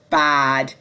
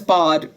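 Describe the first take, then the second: First: The vowel is the open 'a' of cat. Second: The vowel is the long 'ah' of bath. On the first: This is the usual standard pronunciation. The speaker calls it right. "the standard pronunciation is actually bad" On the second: This imitates another speaker's southern British accent. The speaker calls it wrong. "bad is pronounced as bad"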